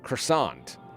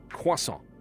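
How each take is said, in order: First: It is said the American way. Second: It is said in a non-American way.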